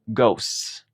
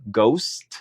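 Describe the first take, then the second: First: "ghosts" said "ghoss", t dropped and the s stretched; long s. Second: "ghost" said slowly with the final t; slow, careful "ghost"; singular ghost. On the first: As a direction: slowly stretch the s at the end of "ghosts". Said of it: "alargar un poco el sonido de la S". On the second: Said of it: "En singular sería". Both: Shown as a demonstration.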